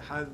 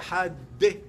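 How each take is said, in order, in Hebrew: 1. המילה נגמרת נקי על ה-d. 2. תנועה נוספת באה אחרי ה-d האחרונה. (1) "לא יוסיף שום תוספת על אחד" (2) "הוא הוסיף ההגיה שמה שלא צריך להוסיף"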